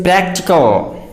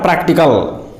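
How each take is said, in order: First: PRACTICAL with the a of cat; correct pronunciation. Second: PRACTICAL with a back a; mispronunciation. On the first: Teacher introduces practical to learners, pronounced with cat vowel. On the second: Teacher warns learners off practical mispronounced "PRAHK-ti-kal". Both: Shown as a demonstration. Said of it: "not practical".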